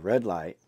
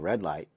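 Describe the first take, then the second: First: It is yelled loudly. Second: It is said at normal volume.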